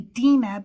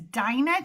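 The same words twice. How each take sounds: First: The name is said with its Hebrew pronunciation. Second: The name is said with its usual American pronunciation. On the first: This is the original form of the name. "that is the actual uh, pronunciation in Hebrew" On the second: This is the commonly used local form of the name. "that is how we say it usually in the United States"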